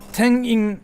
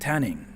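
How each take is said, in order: First: The middle n sound is held long. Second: The middle n sound is cut short.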